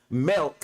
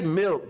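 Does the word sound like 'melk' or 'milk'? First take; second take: melk; milk. First: The vowel is an 'eh' sound. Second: The vowel is a short 'ih' sound. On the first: "M E L K" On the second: "We don't say milk"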